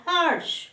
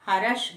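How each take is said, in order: First: हर्ष with r and sh joined, no extra vowel; correct harsh. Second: हर्ष with an extra vowel, like harash; wrong harash. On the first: Teacher giving class the correct हर्ष. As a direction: clean two-sound हर्ष. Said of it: "सही शब्द है हर्ष". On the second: Teacher showing students the wrong हर्ष. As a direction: split हर्ष into three syllables. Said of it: "हर्ष गलत है". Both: Shown as a demonstration.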